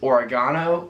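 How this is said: It is said with an Australian pronunciation. "they pronounce them so differently here"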